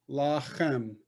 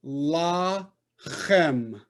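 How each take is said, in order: First: "La-chem" as one connected word, softer; soft, blended "La-chem"; syllables joined. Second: "La-chem" slowly in two separate beats; teacher sounding out "La ... chem"; split into syllables. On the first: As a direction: run "La" straight into "chem". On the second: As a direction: hold "La", pause, then throaty "chem". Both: Shown as a demonstration. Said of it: "Two syllables".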